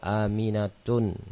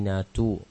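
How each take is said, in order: First: The word ends in an added n sound. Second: The word ends in a plain u vowel. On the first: The speaker calls it wrong. "jangan dibaca" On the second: The speaker calls it right. "pakai dhammah tanpa tanwin"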